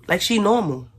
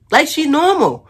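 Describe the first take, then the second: First: High put-on voice of a woman acting normal; mimicking neighbor's fake normal. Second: Much higher, louder mocking repeat; exaggerated fake normal. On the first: Neighbor faking calm for the cops, mocked in a high voice. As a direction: play her acting all innocent, pitched up. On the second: Retelling neighbor fooling the officers, hammed-up high mockery. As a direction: crank the impression way up and loud. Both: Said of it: "Yes, hello." Like she normal".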